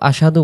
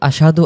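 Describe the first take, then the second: The two takes are said the same way.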